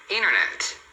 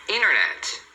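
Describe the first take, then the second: Both takes have the same delivery.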